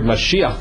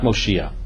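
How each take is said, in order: First: The first vowel sounds like 'ah'. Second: The first vowel sounds like 'oh'. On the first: The speaker calls it right. "The word Mashiach comes really from that" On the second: The speaker calls it wrong. "not Moshiach"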